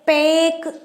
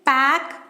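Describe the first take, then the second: First: The vowel is a long sound. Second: The vowel is a short sound. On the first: The speaker calls it wrong. "ऐसे नहीं बोलना है" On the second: The speaker calls it right. "यहाँ पर short sound आ रहा है ए का, not long sound"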